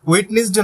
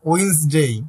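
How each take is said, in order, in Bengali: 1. প্রতিটি অক্ষর উচ্চারণ হয়, মাঝখানে একটি অক্ষর সহ। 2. মাঝের অক্ষরটি বাদ যায়, তাই দুটি অক্ষর হয়। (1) "উচ্চারণ কিন্তু ওয়েটনেসডে না"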